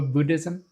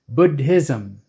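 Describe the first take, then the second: First: One plain d with no puff of air. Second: A doubled d, the second with a puff of air. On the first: The speaker calls it wrong. "That sounds normal to you if you're American" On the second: The speaker calls it right. "the real pronunciation is Buddha and Buddhism"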